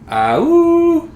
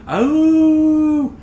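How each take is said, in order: First: A powerful howl with a break between notes. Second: A plain howl on one smooth note.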